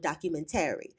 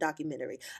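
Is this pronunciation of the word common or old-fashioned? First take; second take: old-fashioned; common. First: The word is said in an old-fashioned way. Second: The word is said the common, usual way. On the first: The speaker belongs to an older generation. "I call it a documentary. That should show y'all my age" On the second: This is how most people say it. "I don't call it a documentary"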